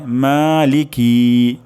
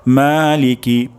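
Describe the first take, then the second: First: মালিকি with লিকি wrongly stretched; wrong Maliki. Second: মালিকি with long মা, short লিকি; correct Maliki. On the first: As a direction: drag the লিকি in মালিকি, the mistake. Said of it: "তাহলে কিন্তু অশুদ্ধ হয়ে যাবে". (ভুল উচ্চারণ: মালিকি-তে লিকি টেনে) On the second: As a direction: stretch মা in মালিকি, clip লিকি. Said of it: "মা আমরা টান দিব, লিকি আমরা টান দিব না". (সঠিক উচ্চারণ: মালিকি, মা টেনে) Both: Shown as a demonstration.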